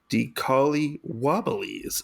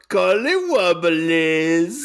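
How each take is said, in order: First: It is said flatly, without energy. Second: It is said with energy and oomph.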